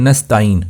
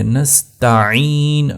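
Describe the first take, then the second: First: نستعین said with the ain dropped; نستعین, skipping the ain from the throat; نستعین mispronounced, no ain; wrong way. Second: نستعین with a clear throat ain, drawn out slowly; slow careful نستعین with full ain; correct ain. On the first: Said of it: "نستعین نہیں ہے". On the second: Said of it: "عین کو آپ نے اچھی طرح سے ادا کرنا ہے". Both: Shown as a demonstration.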